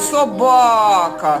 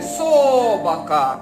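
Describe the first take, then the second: First: The stress is on the second syllable. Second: The stress is on the first syllable. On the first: The speaker calls it right. "На другий" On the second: The speaker calls it wrong. "На перший, слухайте"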